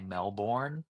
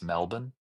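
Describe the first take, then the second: First: The word is said with an American pronunciation. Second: The word is said with an Australian pronunciation. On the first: This is how Americans say it. The speaker calls it wrong. "you guys say Melbourne" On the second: This is how locals say it. The speaker calls it right. "but it's Melbourne"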